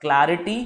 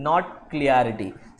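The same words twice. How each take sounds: First: Clarity said with a clear "cla-ri-ty"; right pronunciation. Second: Clarity said slowly as the wrong "kliarity"; wrong pronunciation. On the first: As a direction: say clarity the correct way. (clarity का सही उच्चारण) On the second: (clarity का गलत उच्चारण, धीरे) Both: Shown as a demonstration. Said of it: "the right word is".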